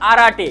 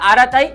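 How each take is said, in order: First: The name ends with a short 'te' sound. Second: The name ends with a 'tai' sound. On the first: This is how it is said in English. "ইংলিশে আরাটে" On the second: This is how it is said in Bengali. "বাংলায় এটা আরাতাই"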